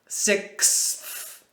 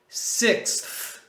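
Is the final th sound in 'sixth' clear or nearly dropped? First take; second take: clear; clear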